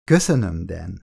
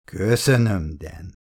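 First: Sweet, overly innocent thanks fading away; syrupy innocent thank-you; calculated innocence. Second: Lightly mimicking her sugary thanks; mocking imitation. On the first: A narrator's reading. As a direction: play the innocent, sugar-sweet. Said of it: "a tőle telhető legnagyobb kiszámított ártatlansággal". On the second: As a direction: parrot her innocence back to tease. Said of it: "utánozta a férfi".

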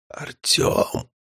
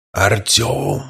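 First: Barely audible breathy call; whisper. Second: Eerie hollow low call; strange voice. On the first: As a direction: whisper the name weakly. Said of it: "на этот раз это был обычный шёпот". (обычный шёпот) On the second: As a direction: call out like an uncanny mimic. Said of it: "позвал его и этот странный голос". (странный жуткий голос) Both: Acted.

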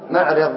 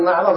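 First: معرض said with a fatha on the r, maʿraḍ; rule form maʿraḍ. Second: معرض said with a kasra on the r, maʿriḍ; heard form maʿriḍ. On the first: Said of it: "والقياس والقاعدة أن نقول". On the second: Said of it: "هذا سماعي". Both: Shown as a demonstration.

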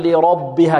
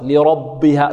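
First: "لربها" بتفخيم الباء تأثرًا بالراء; نطق خاطئ لـ"لربها"; تأثير خاطئ. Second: "لربها" بتخليص الباء من الراء المفخمة; الباء مرققة والراء مفخمة; نطق صحيح. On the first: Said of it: "لا نقول لربها كما سبق". (مثال خاطئ) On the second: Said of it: "لا نقول". (نطق صحيح لـ"لربها") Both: Shown as a demonstration.

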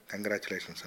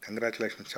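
First: Softly, with a touch of nervousness; understated, hesitant congratulations; timid. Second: Said in the usual way. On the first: A narrator's reading. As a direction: offer it meekly, dropping the voice. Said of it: "బెదురుగా".

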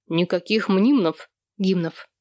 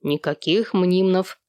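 First: Curt veto; understated flat-out refusal; cutting refusal. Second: Slow, firm refusal; deliberate, immovable veto. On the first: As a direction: shut it down firmly. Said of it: "отрезал Сэм". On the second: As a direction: hold the line, word by word. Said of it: "твёрдо повторил Сэм". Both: A narrator's reading.

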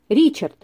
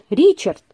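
First: Mild anguished call of his name; a touch of yearning, calling him; lightly voiced longing exclamation; anguished cry. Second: The repeated name, a bit more urgent; a touch more despair on the second call; mild rising anguish; anguished cry, stronger. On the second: Acted. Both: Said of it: "воскликнула она с безотчётной тоской".

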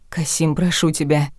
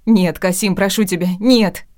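First: Begging. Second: Higher and louder pleading scream; wife screaming as the guard lifts her away; hysterical screaming. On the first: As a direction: plead gently, near tears. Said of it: "умоляла я". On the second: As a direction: scream and plead while being dragged away. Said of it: "Я ревела". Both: A narrator's reading.

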